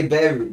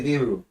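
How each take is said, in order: First: Beru, said with an e, "bay-roo"; wrong take beru. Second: Biru, said with an i, "bee-roo"; right take biru. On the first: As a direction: beru with the vowel "e", not "i". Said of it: "you wanna say beru". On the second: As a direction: biru with a clear "ee" vowel. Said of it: "you wanna say biru". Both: Shown as a demonstration.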